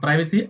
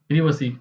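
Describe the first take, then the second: First: The first syllable has an 'eye' sound. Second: The first syllable has a short 'i' sound. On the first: "प्राइवेसी American accent है" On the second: "British English में बोल बोलते हैं प्रीवसी"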